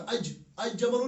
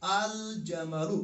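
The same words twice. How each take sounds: First: "अज जमलु" with the article turned into J; wrong reading, L dropped. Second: "अल जमलु" slowly, with a clear L; slow teaching model of "अल जमलु", L pronounced; correct reading, L sounded. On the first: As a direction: double the J, no L, in "अज जमलु". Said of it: "अज जमलु नहीं पढ़ा". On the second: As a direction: stretch out "अल जमलु", L apart from J. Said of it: "हमने क्या पढ़ा?". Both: Shown as a demonstration.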